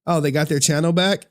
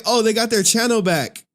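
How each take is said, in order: First: Said in the usual way. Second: Higher-pitched mock amazement; exaggerated, high-pitched echo of being fooled; retold surprise. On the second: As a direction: replay your surprised reaction, pitched up. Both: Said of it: "I'm like".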